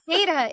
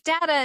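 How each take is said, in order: First: It is pronounced the way more common in the UK. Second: It is pronounced the way more common in the US. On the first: "data is more often used in the U K" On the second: "data is more used in the U S"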